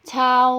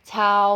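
First: The pitch falls from high to low. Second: The pitch stays level in the middle. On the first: "เสียงโท" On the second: "เสียงสามัญ"

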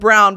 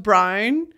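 First: It is said in a standard English accent. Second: It is said in a Northern Irish accent.

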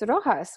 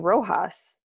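First: The name is said with a Spanish-style pronunciation. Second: The name is said with an English-style pronunciation. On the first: The speaker keeps the name's original form. The speaker calls it right. "it's Rojas. That's how you pronounce it" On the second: The speaker adjusted the name to fit in. The speaker calls it wrong. "I used to just only say the Rojas, and I would say Rojas"

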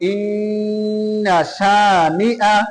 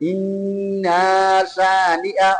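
First: The vowel after the nn is kept short. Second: The vowel after the nn is drawn out. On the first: The speaker calls it right. "শেষ আয়াতের মধ্যে ইন্না শানিআ" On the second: The speaker calls it wrong. "সেখানেও সবাই টান দেয় ইন্না শানিআ, অথচ এটা ভুল।"

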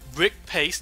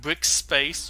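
First: There is no s sound before 'pace'. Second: An s sound comes before 'pace'. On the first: The speaker calls it right. "I said that correct" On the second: The speaker calls it wrong. "not Brick Space"

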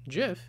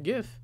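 First: The word begins with a soft J sound. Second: The word begins with a hard G sound. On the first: This is how the creator says it. The speaker calls it right. "what the creator calls it" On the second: This is not how the creator says it. The speaker calls it wrong. "and not"

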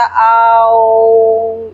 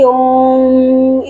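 First: Om starts with a drawn-out 'aa' sound. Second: Om starts directly without a long 'aa' sound. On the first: The speaker calls it right. "ओम का उच्चारण आ से शुरू होता, आओ इस तरीके से करना है" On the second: The speaker calls it wrong. "सीधे ओम इस तरीके से नहीं करना"

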